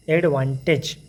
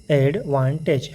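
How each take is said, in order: First: Said in the usual way. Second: advantage said very slowly, syllable by syllable; slow learner's reading of advantage; broken into syllables. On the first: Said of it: "फिर इसको जोड़ देंगे". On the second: Shown as a demonstration. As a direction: sound out advantage in separate slow chunks like a beginner. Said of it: "शुरू में जब learning कर रहे हैं तो हम ऐसा ही पढ़ते हैं".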